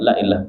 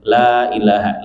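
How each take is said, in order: First: The first syllable 'la' is short. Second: The first syllable 'la' is drawn out long. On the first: The speaker calls it wrong. "Tidak begitu, Pak" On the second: The speaker calls it right. "La-nya dipanjangin agar menjadi la nafi"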